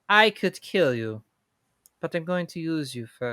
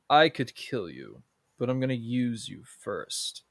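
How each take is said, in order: First: The voice is light and not menacing. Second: The voice is deep and menacing. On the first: This is how the remake villain sounds. The speaker calls it wrong. "Whereas in the live action" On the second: This is how the original villain sounds. The speaker calls it right. "Jafar in the original has that deep, menacing draw"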